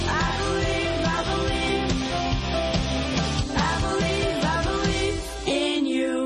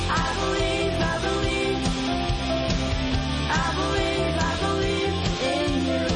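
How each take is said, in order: Both takes have the same delivery.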